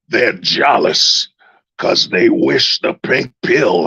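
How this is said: It is read in a put-on preacher voice.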